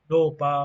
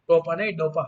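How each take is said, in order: First: dopa said loud and drawn, first take; stressed dopa. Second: Second dopa said loud and firm as the correction; corrected dopa. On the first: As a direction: call out dopa loudly. (Dopa ज़ोर से बोला गया) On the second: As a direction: hit the last dopa hard. (सुधार कर dopa ज़ोर से) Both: Shown as a demonstration.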